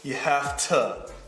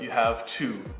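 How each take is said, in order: First: 'Have to' is blended into 'hafta'. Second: 'Have to' is said as two full words. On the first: "You have to instead of" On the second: "instead of you have to"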